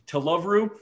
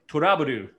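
First: It is said with an American English accent. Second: It is said with a Japanese accent. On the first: "anybody out there who's from the United States, to love Rue to me is a completely acceptable way" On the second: "if you were to pronounce it like a Japanese person would"

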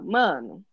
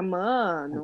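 First: It sounds like announcing surprising news. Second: It sounds like reacting with disbelief.

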